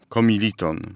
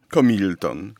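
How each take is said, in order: First: All four syllables are pronounced in full. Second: The middle syllable is dropped, leaving three syllables. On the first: The speaker calls it right. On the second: The speaker calls it wrong.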